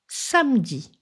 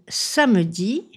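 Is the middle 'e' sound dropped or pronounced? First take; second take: dropped; pronounced. First: The middle e sound is dropped. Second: The middle e sound is fully pronounced. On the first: "devient samedi" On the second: "Le jour de la semaine samedi"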